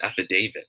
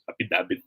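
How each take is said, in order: First: The 'da' syllable has a long A vowel. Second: The 'da' syllable lacks a long A vowel. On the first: The speaker calls it right. "it should be pronounced as affidavit" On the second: The speaker calls it wrong. "Affidavit pa nga minsan"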